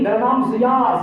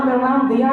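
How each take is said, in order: First: ضیا opening on Z, not D; Z sound in ضیا. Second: دیا opening on D, not Z; D sound in دیا. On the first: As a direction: say ضیا with a buzzing Z at the start. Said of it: "ضیا، ضیا میرا نام". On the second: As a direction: say دیا with a plain D at the start. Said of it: "میرا نام دیا نہیں". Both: Retold or imitated.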